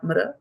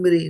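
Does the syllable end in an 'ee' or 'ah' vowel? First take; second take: ah; ee. First: The syllable ends with an 'ah'-like vowel. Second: The syllable ends with an 'ee'-like vowel. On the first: The speaker calls it wrong. "And not Mra" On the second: The speaker calls it right. "You're saying Mri, right?"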